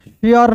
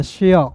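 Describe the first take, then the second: First: शेयर with the r sounded at the end, as the wrong reading; teacher shows the wrong way, saying शेयर with a full r; wrong pronunciation. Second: शेयर said as shea, the final r dropped; teacher gives the right reading, शेयर without r; correct pronunciation. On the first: To students, teacher demonstrates the wrong reading with r. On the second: To students, teacher demonstrates the right reading, r dropped. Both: Shown as a demonstration. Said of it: "शेयर नहीं पढ़ते हैं".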